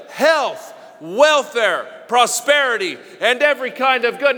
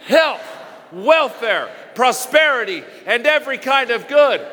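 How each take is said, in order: First: Said in the usual way. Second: Rising, fervent declaration with a shout on prosperity; like you believe it. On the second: Shown as a demonstration. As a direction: proclaim it with conviction, punching each word. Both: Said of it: "Now say it like you believe it".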